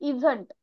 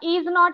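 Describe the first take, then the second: First: It is said as one contracted word. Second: It is said as two separate full words.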